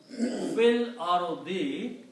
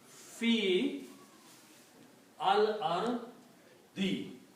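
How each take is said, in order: First: The words are joined, with the alif silent. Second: The words are separate, with the alif sounded. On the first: "when you read them together, you combine this fa with the lam and you pronounce fil" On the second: "this will become fi al ardi"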